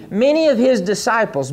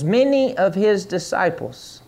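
First: Said in the usual way. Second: Many of his disciples said slower and softer. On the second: Shown as a demonstration. Preacher repeating many of his disciples slowly and softly for the congregation. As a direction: draw out many of his disciples, slow and soft. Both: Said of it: "say many".

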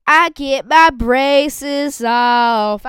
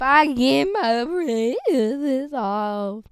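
First: Very slow, high and loud, every word stretched; thrilled announcement. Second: Drawn-out delight. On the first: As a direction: savor each word like big news. Announcing braces coming off. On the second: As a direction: stretch it out dreamily at normal volume. Repeating the braces news. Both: Real, not acted.

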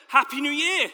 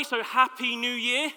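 First: Higher, louder, laughing greeting; friendly. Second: Slow, flat greeting; unfriendly. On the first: Shown as a demonstration. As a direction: greet them warmly with a laugh. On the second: Real, not acted. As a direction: say it without any warmth. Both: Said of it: "It's not very friendly, is it?".

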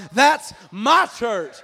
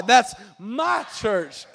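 First: Said in the usual way. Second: "my" punched hard and stretched out; stress on "my". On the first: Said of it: "say it with me one time". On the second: Shown as a demonstration. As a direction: lean long and hard on the word "my". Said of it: "could you put some emphasis on the "my".

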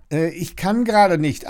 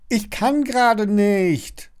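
First: Higher, hedging reply; hesitant excuse. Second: High, slow, pleading shout; drawn-out high wail of excuse; desperate call. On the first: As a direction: stall with an awkward excuse. Lilly stalls the neighbour at door. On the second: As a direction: call it out in despair, dragging the words. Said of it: "ruft Lilly verzweifelt". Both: A narrator's reading.

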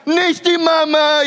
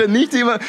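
First: Put-on much higher, louder and slow, whiny baby cry; Dinos baby wail. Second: Put-on higher, lighter replay of the whiny baby line; lightly voiced Dinos baby catchphrase; Dinos baby quote. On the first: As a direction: wail it like the cartoon dino baby. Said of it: "er fängt an zu heulen und zu schreien und sagt". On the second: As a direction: quickly quote the cartoon baby again. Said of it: "die Dinos".

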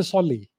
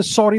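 First: Solly, with an L in place of the R; Japanese accent. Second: Said in the usual way. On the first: Retold or imitated. Teaching how Japanese speakers say sorry, imitating a Japanese accent. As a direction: say solly, the R turned into an L. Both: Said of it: "they say solly".

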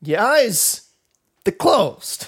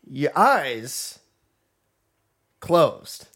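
First: High, halting celebrity impression; Christopher Walken. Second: Halting delivery with long pauses; Christopher Walken. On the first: Repeating the line for a friend, exaggerated Walken impression. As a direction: push the pitch up, pausing mid-phrase. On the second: Acted. Teasing a friend about bedtime, a hint of Walken impression. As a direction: break the phrase oddly, lightly imitated. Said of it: "Why are you talking like Joaquin Phoenix?".

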